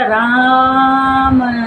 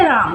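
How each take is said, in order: First: The vowel is drawn out long. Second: The word is said short and plain. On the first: "लेकिन हमने बोला राम" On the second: "सीधे राम हो गया"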